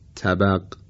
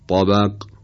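First: The t sound is plain, without emphasis. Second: The t sound is emphatic and heavy. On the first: The speaker calls it wrong. "اگر با ته دو نقطه به عنوان مثال بخوایم تلفظ کنیم اینطور میشه" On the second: The speaker calls it right. "درستش هست"

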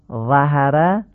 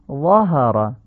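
First: The first vowel is a front, Persian-style a. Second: The first vowel is a short, back, open a. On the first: The speaker calls it wrong. "ظهره این فتحه فصیح نیست" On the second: The speaker calls it right. "فتحه ظا رو باید آی کوتاه بگیم"

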